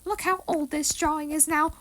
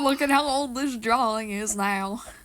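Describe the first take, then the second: First: It is said in a squeaky cartoon voice. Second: It is said in a Western drawl. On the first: "Why am I doing a Mickey Mouse voice for an, what's supposed to be an old person voice?" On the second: "Now I'm doing it in a Western accent"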